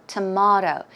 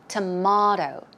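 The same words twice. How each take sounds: No difference in how they are said.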